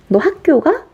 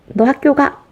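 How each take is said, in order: First: The pitch rises at the end. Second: The pitch falls at the end. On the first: It asks whether the listener is going to school. "우리 끝을 올리죠?" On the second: It orders the listener to go to school. "이렇게 얘기하면 명령문이 될 수 있습니다"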